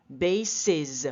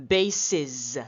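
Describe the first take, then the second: The two takes are said the same way.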